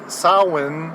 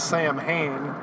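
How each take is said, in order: First: The name is said with its Irish pronunciation. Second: The name is read as spelled, Sam Hain. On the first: "if you want to pronounce it more Irish" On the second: "most people would know it as Sam Hain"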